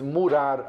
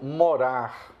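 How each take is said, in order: First: The first vowel sounds like a closed u. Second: The first vowel is an open o. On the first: "O U de murar" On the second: "é o nosso morar"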